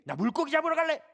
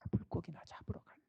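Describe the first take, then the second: First: It is said in an angry, irritated tone. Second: It is said in a dejected, discouraged tone. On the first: "화가 나서" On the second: "아주 의기소침해서 한 말로 들려요"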